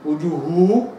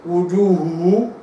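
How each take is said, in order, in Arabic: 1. يتداخل صوتا الهاء ويصيران صوتًا واحدًا. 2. يتداخل صوتا الهاء ويصيران صوتًا واحدًا.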